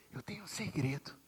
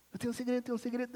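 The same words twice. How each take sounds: First: Put-on soft breathy whisper into a child's ear; whispered secret. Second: Calling out. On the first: Father whispers a secret into his little daughter's ear. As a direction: lean in and whisper. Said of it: "Eu chegava no ouvido dela". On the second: Retold or imitated. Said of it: "Ô, Bela".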